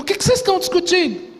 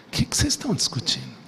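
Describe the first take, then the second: First: Much higher and fast, pressing the crowd; Jesus confronting the arguing groups, high and fast; pressing question. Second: Low, soft and quick, with a knowing irony; a quiet, ironic question from Jesus. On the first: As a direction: put everyone against the wall with the question. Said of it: "eu entendo que Jesus perguntou". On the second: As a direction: ask it as if you already know the answer. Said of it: "uma certa, entre aspas, ironia". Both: Retold or imitated.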